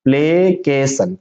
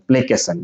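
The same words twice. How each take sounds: First: Slow, drawn-out "प्लेकेशन"; syllable by syllable. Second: Said in the usual way. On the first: Shown as a demonstration. Teacher answering own question, slowly in syllables. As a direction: separate "प्लेकेशन" into play, kay, san. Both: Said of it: "क्या पढ़ेंगे".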